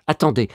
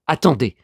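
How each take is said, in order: Both takes have the same delivery.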